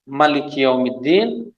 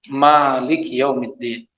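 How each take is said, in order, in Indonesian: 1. Vokal setelah m dibaca pendek. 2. Vokal setelah m dibaca panjang. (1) "Malik tanpa mad" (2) "dipanjangkan mimnya dua harokat"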